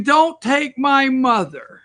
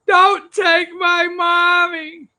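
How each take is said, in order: First: Put-on high, slow plea of a little girl; mild mock wail of a crying girl; mock crying child. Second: Put-on much higher, slow, shouted child's wail; hammed-up sobbing little girl; mock crying child wail. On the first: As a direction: imitate a sobbing child begging. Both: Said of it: "that's crying".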